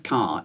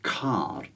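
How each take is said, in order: First: The K is said without aspiration. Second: The K is said with aspiration. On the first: The speaker calls it wrong. "it's not a car" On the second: The speaker calls it right. "the K is aspirated"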